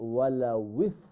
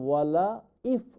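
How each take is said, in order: First: The second word begins with a w sound. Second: The second word begins directly with a vowel. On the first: The speaker calls it right. "এটা directly ওয়াও গিয়ে ফার সাথে জয়েন হবে" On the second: The speaker calls it wrong. "ওয়ালা ইফ নয়"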